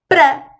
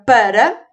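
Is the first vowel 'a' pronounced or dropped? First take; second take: dropped; pronounced. First: The first vowel is dropped, sounding like pra. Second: Both vowels are pronounced in full. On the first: "oralmente, para" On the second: "A palavra para"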